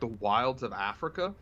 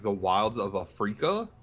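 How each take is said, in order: First: The phrase is pronounced in the usual way. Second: The phrase is pronounced in an odd, unusual way.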